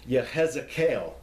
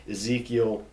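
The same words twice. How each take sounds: First: "Yehezekiel" in Hebrew form, ye-HEZ-eh-kel; Hebrew-style "Yehezekiel"; original Hebrew pronunciation. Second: "Ezekiel" the familiar English way, ih-ZEE-kee-ul; English-style "Ezekiel"; anglicized Ezekiel. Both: Shown as a demonstration. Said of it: "not originally pronounced like that".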